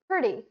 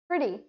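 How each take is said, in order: First: It is said in an American accent. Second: It is said in an American accent.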